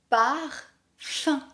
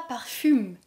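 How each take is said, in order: First: The word ends with a nasal vowel, no M. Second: The word ends with an audible M sound. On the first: The speaker calls it right. "La lettre U et M donnent ici le son un" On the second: The speaker calls it wrong. "Ne dis pas parfume"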